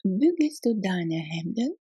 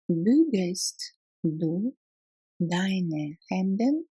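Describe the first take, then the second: First: Said in the usual way. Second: Very slow, split into two chunks; slow repetition. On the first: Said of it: "teacher models sentence then repeats". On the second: Shown as a demonstration. Teacher repeating the German question slowly for learners. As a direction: break it up slowly so learners can follow. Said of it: "teacher repeats slowly in chunks".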